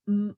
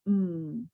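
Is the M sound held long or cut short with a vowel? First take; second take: cut short; held long. First: The M sound is cut short with a vowel. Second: The M sound is held long with no vowel. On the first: This is how it was taught in the past. The speaker calls it wrong. "you may have pronounced the M letter as" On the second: This is how the programme teaches it now. The speaker calls it right. "but actually in the Sounds Right programme it's mm"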